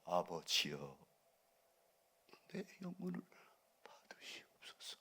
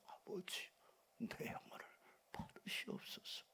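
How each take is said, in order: First: It is said in a full, ordinary voice. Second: It is said in a gasping, breathless voice.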